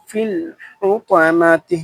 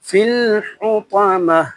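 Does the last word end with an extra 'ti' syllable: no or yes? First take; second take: yes; no. First: The word ends with a full 'ti' syllable. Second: The word stops without the final vowel. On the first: The recitation continues without stopping. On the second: The reciter stops at this word.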